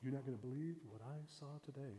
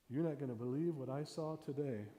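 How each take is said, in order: First: Hushed teaser. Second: Said in the usual way. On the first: Shown as a demonstration. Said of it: "when you say that". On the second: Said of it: "you just sit there and you go".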